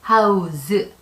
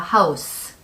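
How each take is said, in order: First: The word ends with a z sound. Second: The word ends with an s sound. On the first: It is the verb meaning to provide a place to live. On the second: It is the noun meaning a home. "스 발음이 나죠"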